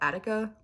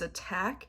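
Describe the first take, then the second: First: The name is said with three syllables. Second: The name is said with two syllables. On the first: The speaker calls it wrong. "was their first instinct to call it Attica, like the prison" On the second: The speaker calls it right. "I think you're just supposed to pronounce it as attack"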